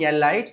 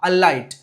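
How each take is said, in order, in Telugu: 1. ఈ పదం 'e' అచ్చు ధ్వనితో మొదలవుతుంది. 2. ఈ పదం 'a' అచ్చు ధ్వనితో మొదలవుతుంది. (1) "it's not ఎలైట్" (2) "it's a ఆ ఆ అలైట్"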